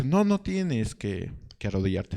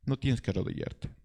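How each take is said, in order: First: Absalón reassuring. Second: Much softer, closing the quote; soft repeat. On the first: Absalón coaxing a subject not to kneel, slowly. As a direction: draw it out kindly, lifting it up. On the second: Absalón repeats his offer to the people, softly. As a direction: let it fall quietly. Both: Retold or imitated. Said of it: "Absalón dice".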